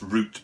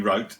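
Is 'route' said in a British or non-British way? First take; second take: British; non-British. First: The word is said with a British pronunciation. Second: The word is said with a non-British pronunciation. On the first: "I'm British, so I would say just like a bus route" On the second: "it has to be route"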